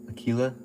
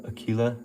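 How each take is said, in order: Both takes have the same delivery.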